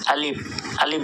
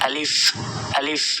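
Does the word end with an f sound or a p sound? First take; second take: p sound; f sound. First: The word ends with a p sound. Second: The word ends with an f sound. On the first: The speaker calls it wrong. "অনেকে প এর মতো উচ্চারণ করে, বাংলা প শেষে আলিফ আলিফ বলে" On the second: The speaker calls it right. "আসলে এটা আলিফ আলিফ"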